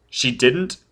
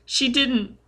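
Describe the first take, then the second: First: DIDN'T rising in the adult voice; "didn't" lifted as a question, in usual register. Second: Put-on very high frightened child voice; shrieking child. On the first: Foyle checks the child's answer, rising on DIDN'T. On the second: Scared child answering Foyle, high and distressed. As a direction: deny it in a small boy's high voice. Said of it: "The child was shrieking and shaking". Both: A narrator's reading.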